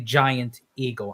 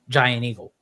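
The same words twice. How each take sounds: First: It is said in a standard accent. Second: It is said in a Pennsylvania accent. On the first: "I don't say Giant Eagle" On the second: "as I say in my Pennsylvania accent"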